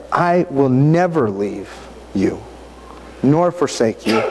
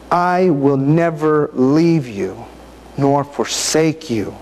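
First: Said in the usual way. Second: Slow, each word given weight; slow savoring reading. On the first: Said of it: "For he has said". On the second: Real, not acted. Preacher lingering on the verse for listeners, slow and deliberate. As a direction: let the promise sink in slowly. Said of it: "Think about what they're saying".

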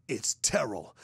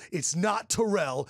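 First: "Terrell" stressed on the first syllable, low; annoyed name correction. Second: "Terrell" stressed on the second syllable, slow; slowly mock the wrong tuh-RELL for "Terrell"; annoyed mispronunciation. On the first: Retold or imitated. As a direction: correct them with TER-ul, front-stressed "Terrell". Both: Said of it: "pissed, and goes".

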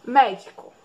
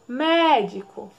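First: Said in the usual way. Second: "Médico" slowly with a long MÉ; "Médico" with first syllable held, rest falling away; stressed first syllable. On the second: Shown as a demonstration. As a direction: draw out the MÉ in "Médico". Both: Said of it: "Qual é a sílaba mais forte".

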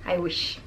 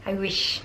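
Both takes have the same delivery.

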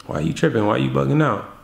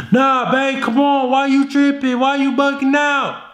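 First: Calm and cool. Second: Frantic pleading. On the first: Shown as a demonstration. Boyfriend to girlfriend, calm relaxed dismissal. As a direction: shrug it off coolly. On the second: Retold or imitated. Boyfriend to girlfriend, high whiny pleading. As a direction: beg her anxiously. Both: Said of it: "How are you gonna respond?".

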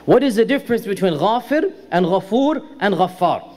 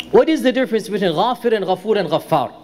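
First: Measured repeated question. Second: Fast, run-together delivery of the question; quick question. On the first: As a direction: pause between each of the three names. Question repeated, names set apart. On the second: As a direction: ask it briskly in one go. Question posed, then repeated for clarity. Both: Real, not acted.

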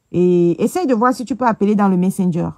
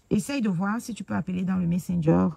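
First: Calling it out louder; loud first call, then repeated normally. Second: Said in the usual way. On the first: Real, not acted. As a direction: say it louder so they hear. Repeating request louder to viewer.

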